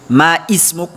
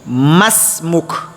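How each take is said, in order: First: The two words are said separately, unlinked. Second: The two words are merged into one linked word. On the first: The speaker calls it wrong. "ça se dit pas" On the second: The speaker calls it right. "On dit masmuk"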